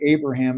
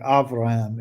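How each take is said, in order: First: The name is said in its English form. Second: The name is said in its Hebrew form. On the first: "I'm trying to go back between English and Hebrew. So I want to say Abraham" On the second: "and I was like Avraham"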